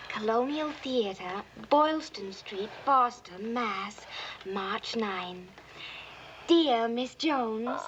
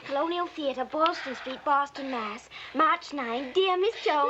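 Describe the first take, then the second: First: It is read slowly. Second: It is read fast.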